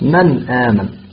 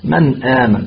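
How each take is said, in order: First: The n sound is clear and fully pronounced. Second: The n sound is clear and fully pronounced.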